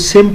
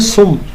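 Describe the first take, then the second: First: The word is said with an i vowel. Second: The word is said with a u vowel. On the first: The speaker calls it wrong. "कोई सिम पढ़ रहा होता है" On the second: The speaker calls it right. "ये लफ्ज़ है असल में सुम"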